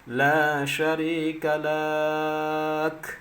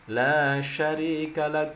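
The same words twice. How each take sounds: First: The final syllable is drawn out long. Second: The final syllable stops short. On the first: The speaker calls it wrong. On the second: The speaker calls it right. "berhenti dia"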